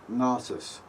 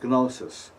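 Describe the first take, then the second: First: It begins with the ng sound of long. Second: It begins with a hard g before the n. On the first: "like the N G on long" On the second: "The G is pronounced"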